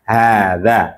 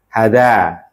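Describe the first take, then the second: First: Hada with the first a drawn out long, haada; long first vowel. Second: Hada with a short clipped first a; wrong short vowel. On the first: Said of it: "tapi hada". (hada dengan a pertama dipanjangkan, haada) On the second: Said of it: "kurang tepat". (hada dengan a pendek, pengucapan salah) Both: Shown as a demonstration.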